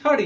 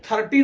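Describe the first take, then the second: First: "थर्टी" with a quick flapped T, THUR-dee; correct pronunciation of thirty. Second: "थर्टी" with a hard T, thur-TEE; wrong pronunciation of thirty. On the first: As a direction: flick the T lightly in "थर्टी". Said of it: "this is". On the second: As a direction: hit a full T in "थर्टी". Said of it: "ये थर्टी नहीं होता". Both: Shown as a demonstration.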